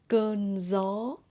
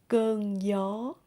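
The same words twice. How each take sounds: First: Northern accent, the gi sounds like z. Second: Southern accent, the gi sounds like y. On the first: "in Northern accent" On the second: "in Southern accent"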